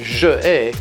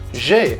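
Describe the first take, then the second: First: The word je is said in full before ai. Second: The vowel of je is dropped before ai. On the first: The speaker calls it wrong. "you would never say je ai" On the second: The speaker calls it right. "it's always j'ai"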